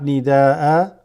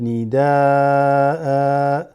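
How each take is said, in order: First: The final vowel is held briefly. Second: The final vowel is held longer. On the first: The speaker calls it wrong. "not nida'a" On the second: The speaker calls it right. "Just two count"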